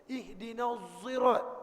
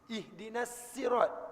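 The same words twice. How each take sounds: First: Sirat begins with a z sound. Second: Sirat begins with a plain s sound. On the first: "Ada ulama baca dengan zai" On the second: "Ada ulama baca dengan sin"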